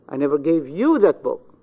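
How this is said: The stress falls on the word you. "in the pronoun you"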